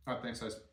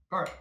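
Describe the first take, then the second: First: Talking with mouth full; words round a bite of food. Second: Said in the usual way. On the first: Real, not acted. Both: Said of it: "Should talk with my mouth full".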